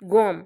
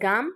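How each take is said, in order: First: The vowel is a rounded 'o' sound. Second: The vowel is an open 'aa' sound. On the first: This is the northern Patani dialect form. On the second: This is the standard form.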